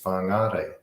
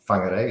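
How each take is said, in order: First: The vowel after the R is long. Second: The vowel after the R is short. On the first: The speaker calls it right. "it's whangare" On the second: The speaker calls it wrong. "It's not whangare"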